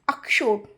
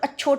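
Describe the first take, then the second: First: The middle consonant sounds like 'ksh' with a 'sh'. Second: The middle consonant sounds like a plain 'ch'. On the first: The speaker calls it right. "यानी अक्षवाट, अक्षोट।" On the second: The speaker calls it wrong. "सब अच्छोट बोल के चले जाते हैं, तो वो गलत है।"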